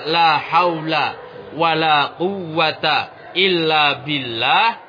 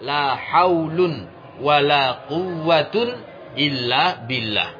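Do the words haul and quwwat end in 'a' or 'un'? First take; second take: a; un. First: Haul and quwwat end in a short 'a'. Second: Haul and quwwat end in 'un'. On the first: The nouns are read in the indeclinable fatha form. "Boleh dimabnikan di atas tanda nasab seperti pertama" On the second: The nouns are read in the nominative form. "dan boleh pula merofaknya"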